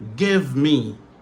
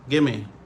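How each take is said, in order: First: Both words are said fully and distinctly. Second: The words are run together in reduced form. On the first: "Ça, c'est prononciation normale" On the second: "Réduction, c'est give me"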